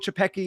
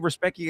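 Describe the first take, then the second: First: The name starts with a ch sound, Polish-style. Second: The name starts with an r sound, American-style. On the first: "you can try to go" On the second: "you can say"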